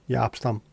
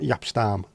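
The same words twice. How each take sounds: First: The vowel in Jaap is an open 'ah'. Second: The vowel in Jaap is not 'ah'. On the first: The speaker calls it right. "Double A is A" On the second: The speaker calls it wrong. "not Jaap Stam"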